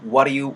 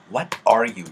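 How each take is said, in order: First: The t is a soft flap, like 'water'. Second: Each word is pronounced separately and crisply. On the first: "water 사운드로 굴려가지고" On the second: "이렇게 또박또박하게 얘기를 하는 사람이 많이 없다"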